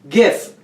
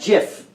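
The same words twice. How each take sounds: First: It starts with a hard G sound. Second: It starts with a soft J sound. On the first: The speaker calls it right. "Because it's G gr gra gra graphic graphic" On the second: The speaker calls it wrong. "not GIF"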